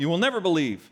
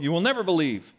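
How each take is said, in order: First: It is said in a frustrated tone. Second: It is said in a frustrated tone.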